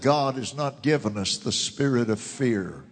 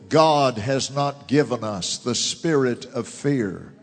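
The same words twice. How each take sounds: First: The sentence is spoken at a normal pace. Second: The sentence is spoken slowly and deliberately.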